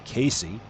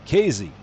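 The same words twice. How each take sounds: First: The middle consonant is an s sound. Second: The middle consonant is a z sound. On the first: "like Casey at the bat" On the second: "like it would be C A Z E Y"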